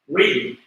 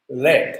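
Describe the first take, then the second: First: The vowel is long, like in bead. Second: The vowel is short, like in bed. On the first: It is the verb meaning to guide. "But top one is, you have to pronounce this as read. This is verb" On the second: It names the metal element. "this element, P B element, this is, you have to pronounce this as lead"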